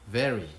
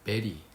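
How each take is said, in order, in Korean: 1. 윗니를 아랫입술에 대고 시작해요. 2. 두 입술을 붙였다가 떼면서 시작해요. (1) "V는 very" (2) "비읍으로 대신 발음하면 안 됩니다. very 이렇게요"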